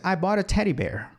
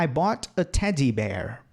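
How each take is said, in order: First: Teddy said tɛɾi with a tapped D; flapped D in teddy. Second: Teddy said tɛdi with a full D, slower; careful hard D in teddy. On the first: Teacher showing his everyday teddy bear. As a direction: tap the D in teddy, natural American. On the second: Teacher showing the way he would not say it. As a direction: spell out the D in teddy deliberately. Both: Shown as a demonstration. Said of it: "Não vou falar".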